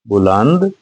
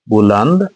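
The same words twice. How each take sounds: No difference in how they are said.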